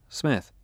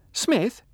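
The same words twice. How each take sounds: First: Said in the usual way. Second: Put-on high, loud surprised old woman. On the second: A narrator's reading. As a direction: echo the name in drunken surprise.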